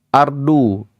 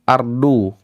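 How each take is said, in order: No difference in how they are said.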